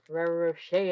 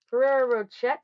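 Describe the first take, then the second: First: "Ferrero Rocher" with a rolled r and a French "ro-SHAY" ending; proper pronunciation. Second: "Ferrero Rocher" said loud and high, the English way, ending "rotch-er"; anglicized pronunciation. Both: Shown as a demonstration. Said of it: "as you're supposed to pronounce it".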